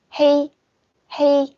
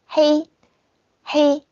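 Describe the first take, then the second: No difference in how they are said.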